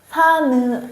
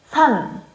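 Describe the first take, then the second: First: The final n is released as an extra syllable. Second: The word is said as one closed syllable. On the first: The speaker calls it wrong. "산은 아니요" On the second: The speaker calls it right. "Say one sound, like one sound"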